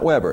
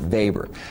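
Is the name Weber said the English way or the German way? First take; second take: English; German. First: The name is said the English way. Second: The name is said the German way. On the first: The speaker calls it wrong. "not Weber, it's not Weber bread" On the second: The speaker calls it right. "It's the German E with the A, you pronounce it Weber"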